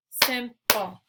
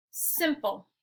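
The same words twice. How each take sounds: First: "Simple" loudly broken with a gap between syllables. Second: Said in the usual way. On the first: Shown as a demonstration. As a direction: clap out "Simple" in two beats. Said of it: "clap the syllables out". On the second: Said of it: "I'll say the word".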